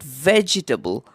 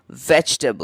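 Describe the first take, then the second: First: A vowel is heard after the g sound. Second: No vowel is heard after the g sound. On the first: The speaker calls it wrong. "It is not vegetable" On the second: The speaker calls it right. "the E after the G is silent and that makes it vegetable"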